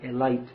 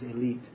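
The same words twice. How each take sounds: First: The word is said in an Indian English way. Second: The word is said in a standard English way. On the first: "as they say in India" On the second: "actually, the pronunciation is"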